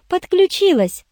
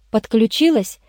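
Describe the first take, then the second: First: Gleeful high-pitched confirmation; joyful. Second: Said in the usual way. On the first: A narrator's reading. Irene eagerly confirms she joined the case, joyfully. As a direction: chirp it happily, voice leaping up. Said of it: "радостно кивнула Ирен". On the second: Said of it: "спросил я".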